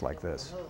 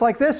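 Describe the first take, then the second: First: It is spoken in a low-pitched voice. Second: It is spoken in a high-pitched voice. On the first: The speaker sounds calm and effective. The speaker calls it right. "a low voice like this" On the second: The speaker sounds excitable or stressed. The speaker calls it wrong. "A high voice like this"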